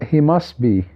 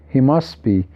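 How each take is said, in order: No difference in how they are said.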